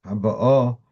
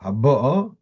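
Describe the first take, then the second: First: Haba'o with a light BA and stressed final O; stress on last syllable. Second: Haba'o with the weight on BA, before the final O; stress on second-last syllable. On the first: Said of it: "The second one was". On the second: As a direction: lean on the middle of Haba'o. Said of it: "The first one was". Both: Shown as a demonstration.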